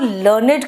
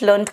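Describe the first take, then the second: First: The ending is said as a separate ed syllable. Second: The ending is said as a plain d sound. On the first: It means educated or knowledgeable. "ED लगाओगे तो वो लर्नेड के रूप में ... adjective" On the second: It means studied or learnt. "Learn का second form में लर्नड लर्नड कहते हैं"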